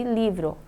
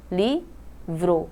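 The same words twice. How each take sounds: First: Said in the usual way. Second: "livro" as li, pause, vro; split into syllables. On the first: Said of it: "também na palavra aí". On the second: Shown as a demonstration. Teacher dividing words for pupils, "livro" syllable by syllable. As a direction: break "livro" into two separate syllables. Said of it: "dividi-las em sílabas".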